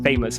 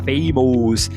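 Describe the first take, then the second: First: The second vowel is a reduced schwa. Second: The second vowel is a full, unreduced vowel. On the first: The speaker calls it right. "uh, uh, uh, uh, famous" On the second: The speaker calls it wrong. "A gente quer falar famous"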